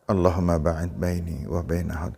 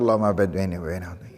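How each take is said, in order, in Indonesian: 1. Dibaca dengan tempo sedang, biasa. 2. Dibaca sangat cepat dan tergesa-gesa. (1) "Dibaca tidak terlalu pelan, tidak terlalu cepat, biasa" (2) "jangan terlalu cepat"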